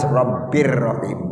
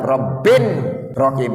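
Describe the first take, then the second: First: The first word ends with an r sound. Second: The first word ends with an n sound. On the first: The speaker calls it right. "harus Robbir Rohim" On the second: The speaker calls it wrong. "abang nggak boleh baca Robbin Rohim"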